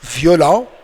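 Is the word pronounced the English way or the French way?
French. It is pronounced with French sounds. "same spelling, but somehow different pronunciation"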